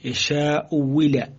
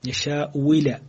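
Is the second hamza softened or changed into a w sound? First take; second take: w sound; w sound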